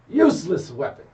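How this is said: It sounds angry, with strong stress on 'useless'. The speaker calls it right.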